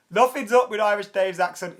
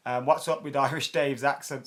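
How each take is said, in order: First: "up" punched, higher and louder; emphatic denial. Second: Said in the usual way. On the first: Real, not acted. Answering a viewer who mocks Irish Dave's accent, emphatic. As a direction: shut the question down firmly on "up".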